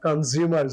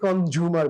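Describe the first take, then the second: First: The middle consonant is a Z sound. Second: The middle consonant is a J sound. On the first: "জিম্বাবুয়ের জেড" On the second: "আমরা অনেকে কনজিউমার বলি, যে জাপানের যে"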